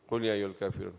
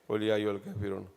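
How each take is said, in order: The two takes are said the same way.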